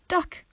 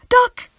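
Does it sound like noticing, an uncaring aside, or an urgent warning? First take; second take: noticing; urgent. First: It sounds like simply pointing something out. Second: It sounds like an urgent shouted warning.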